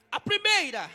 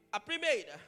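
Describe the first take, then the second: First: "A primeira" called out high and loud; emphatic. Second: Said in the usual way. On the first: Shown as a demonstration. Preacher announcing the first point, high and emphatic.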